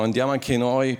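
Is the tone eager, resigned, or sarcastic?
sarcastic. It sounds sarcastic and reproachful. You know how this will end. "però Gesù lo sai come va a finire"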